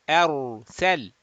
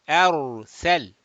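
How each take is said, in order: The two takes are said the same way.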